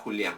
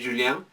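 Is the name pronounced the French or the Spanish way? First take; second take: Spanish; French. First: The name is said with Spanish pronunciation. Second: The name is said with French pronunciation. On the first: "la parte castellanizada Julián" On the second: "la pronunciación francesa que sería Julien"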